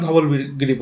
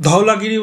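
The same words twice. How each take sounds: First: ধবলগিরি with a clear "b", dhabal-giri; Bengali pronunciation. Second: ধওলাগিরি with "dhau-la" in place of "dhabal"; English-spelling pronunciation. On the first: Teacher telling students the Bengali name, ধবলগিরি said dhabal-giri. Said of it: "বাংলায় ধবলগিরি উচ্চারণ করি আমরা". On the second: Teacher showing students which name to avoid, ধওলাগিরি said dhau-la-gi-ri. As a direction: say ধওলাগিরি as four drawn syllables, dhau-la-gi-ri. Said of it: "বলবেন না ধবলগিরি বলবেন". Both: Shown as a demonstration.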